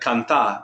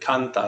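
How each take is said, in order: First: The stress is on the last syllable. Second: The stress is on the first syllable. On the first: The speaker calls it wrong. "That's a different word. Canta would be spelled C A N T A with the accent mark" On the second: The speaker calls it right. "very good"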